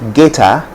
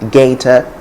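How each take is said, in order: First: It is said with a Ghanaian English accent. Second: It is said with a standard English accent. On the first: "Ghanaians will say gator" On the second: "in standard English it's simply gator and gator"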